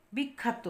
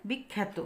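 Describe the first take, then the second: First: বিখ্যাত said as 'bik-khaa-to'; spelled aa vowel. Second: বিখ্যাত said as 'bik-khæ-to'; æ-like vowel. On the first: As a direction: open 'aa' in the middle of বিখ্যাত. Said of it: "এই যে আকার দিয়েছি". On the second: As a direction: middle of বিখ্যাত like 'a' in 'cat'. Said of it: "উচ্চারণ কি হবে?". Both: Shown as a demonstration.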